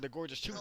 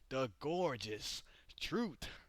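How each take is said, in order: First: The phrase is said at a normal speed. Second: The phrase is said slowly and drawn out.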